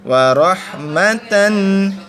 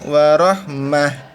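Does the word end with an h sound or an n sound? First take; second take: n sound; h sound. First: The word ends with a t-an syllable. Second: The word ends with a voiceless h sound. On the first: The reading continues. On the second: The reading stops here.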